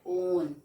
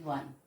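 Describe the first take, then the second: First: The word begins with a long o vowel. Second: The word begins with a w sound. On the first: The speaker calls it wrong. "We never say own" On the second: The speaker calls it right. "We say one"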